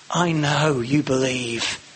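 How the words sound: It is said softly and coaxingly. A gentle attempt to win the listener over. "Maybe winning over, a bit of wooing"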